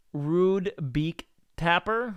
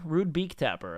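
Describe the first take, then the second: First: "Rude Beak Tapper?" slow and rising, unsure of the name; questioning read. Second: "Rude Beak Tapper." falling, settled and softer; confirming read. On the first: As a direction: sound it out slowly as a question. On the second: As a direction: state the name with a falling close. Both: Real, not acted.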